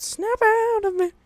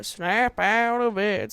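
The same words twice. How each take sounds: First: "Snap out of it" shrieked much higher and louder, slow; high yelled snap out of it. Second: Said in the usual way. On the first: Acted. Shouting at lawn lovers to wake up, shrieked high and loud.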